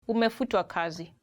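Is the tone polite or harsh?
polite. It is said in a gentle, polite tone.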